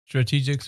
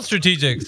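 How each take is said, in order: First: The name is said in a plain, flat voice. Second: The name is said with lively, enthusiastic energy.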